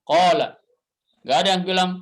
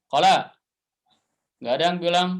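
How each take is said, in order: Both takes have the same delivery.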